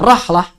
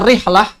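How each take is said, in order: First: The first vowel is an a sound. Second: The first vowel is an i sound. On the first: "boleh dibaca rahlah" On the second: "boleh dibaca rihlah"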